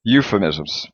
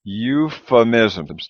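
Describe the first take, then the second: First: Euphemisms said at natural speed, one smooth word; faster. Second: Euphemisms drawn out very slowly, each syllable apart. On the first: Teacher repeats the word faster for students. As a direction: run euphemisms together quickly. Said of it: "let's say it a little bit faster". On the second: Teacher models the word slowly for the class. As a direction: break euphemisms into slow even beats. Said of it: "like an F". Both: Shown as a demonstration.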